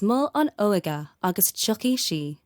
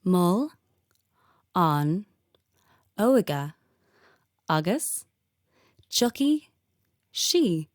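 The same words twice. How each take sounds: First: It is said at normal speed. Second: It is said slowly.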